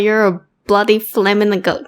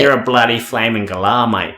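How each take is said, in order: First: Attempted Aussie accent. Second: Aussie accent. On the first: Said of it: "I can't say it". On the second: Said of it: "say it in the whole Aussie accent". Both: Shown as a demonstration.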